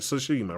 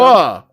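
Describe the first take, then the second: First: The first syllable is said as 'tsu'. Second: The first syllable is said as 'to'. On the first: The speaker calls it right. "I got to say it right" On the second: The speaker calls it wrong. "I say Toshima"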